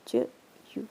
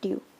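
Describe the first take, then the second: First: The syllable begins with a ch sound. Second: The syllable begins with a t sound.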